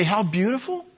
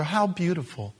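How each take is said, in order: First: Higher, mock-sweet sarcasm; dripping mock admiration; sarcastic. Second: Sarcastic. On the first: Shown as a demonstration. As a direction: say it like you don't mean it. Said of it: "hear the sarcasm in my voice when I say". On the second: Acted. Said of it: "hear the sarcasm in my voice".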